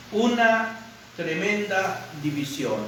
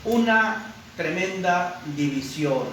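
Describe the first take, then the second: No difference in how they are said.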